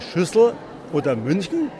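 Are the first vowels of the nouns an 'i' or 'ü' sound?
ü. The vowels are rounded ü sounds. "Wir sagen auch nicht zum Beispiel bei Schüssel oder München"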